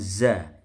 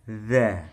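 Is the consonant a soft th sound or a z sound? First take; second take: z sound; th sound. First: The consonant is a plain buzzing z sound. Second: The consonant is a th sound, tongue on teeth. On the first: The speaker calls it wrong. "bukan za" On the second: The speaker calls it right. "Dzal itu lidahnya nempel gigi atas"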